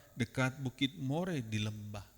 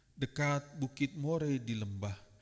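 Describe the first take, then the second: Both takes have the same delivery.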